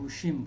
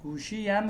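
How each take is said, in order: First: The word is shortened to a -im ending. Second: The word keeps the full -iam ending. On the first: This is the everyday spoken form. The speaker calls it right. "गुशिम बोलते हैं" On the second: This is the written form. The speaker calls it wrong. "बिल्कुल इस्तेमाल नहीं होता गुशियम बोलना"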